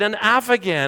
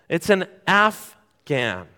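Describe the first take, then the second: First: The word has an extra inserted syllable. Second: The word has no extra inserted syllable. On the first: The speaker calls it wrong. "There was an extra A" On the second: The speaker calls it right. "It's not what it's called"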